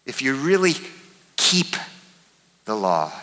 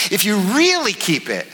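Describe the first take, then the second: First: "keep" set apart by pauses before and after; pause, land "keep" alone, pause; stress on keep. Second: "really" stretched out and pitched high; big swooping emphasis on "really"; stress on really. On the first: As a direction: isolate the word "keep", then drop low. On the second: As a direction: hit "really" hard and draw it out. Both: Shown as a demonstration. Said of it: "to emphasize the different words".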